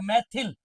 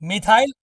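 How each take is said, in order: First: The second syllable has a short 'i' vowel. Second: The second syllable has a long 'ai' vowel.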